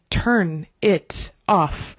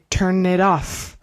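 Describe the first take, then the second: First: Each word is said separately with breaks. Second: The words run together like one word. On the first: The speaker calls it wrong. "we do not say" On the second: The speaker calls it right. "Kind of like one long word"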